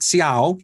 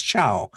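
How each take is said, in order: First: "Ciao" with a separate "see" at the start; see-OW mispronunciation. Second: "Ciao" in one syllable with a ch; Italian chow pronunciation. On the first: Showing how not to read Italian, "Ciao" as see-OW. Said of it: "It's not Ciao". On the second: Explaining the Italian spelling rule, "Ciao" as chow. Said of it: "I see, it's Ciao". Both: Shown as a demonstration.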